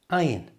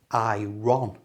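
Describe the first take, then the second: First: The R sound is silent. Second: The R sound is clearly pronounced. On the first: The speaker calls it right. "The R here is silent" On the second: The speaker calls it wrong. "it should be iron, but it's not"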